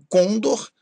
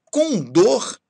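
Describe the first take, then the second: First: "côndor" stressed on CÔN; stress on first syllable. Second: "Condor" stressed on DOR; stress on last syllable. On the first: Teacher showing what not to say, "côndor" stressed on CÔN. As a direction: wrongly hit CÔN in "côndor". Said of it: "e não côndor". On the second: Teacher giving the correct form, "Condor" stressed on DOR. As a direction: hit the final DOR of "Condor". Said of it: "Condor e não côndor". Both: Shown as a demonstration.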